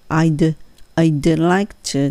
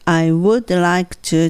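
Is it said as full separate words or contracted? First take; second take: contracted; full. First: The first words are squeezed into one contraction. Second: Each word is said fully and separately. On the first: The speaker calls it right. "キュッと縮めて" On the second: The speaker calls it wrong. "バラバラにせずに"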